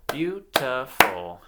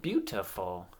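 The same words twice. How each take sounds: First: "beautiful" slow and loud as beau, ti, ful; syllable by syllable. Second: Said in the usual way. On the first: Shown as a demonstration. Teacher clapping the word with children, syllable by syllable. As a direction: clap out "beautiful" in three separate beats. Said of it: "clap the syllables". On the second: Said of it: "I'm gonna say a word".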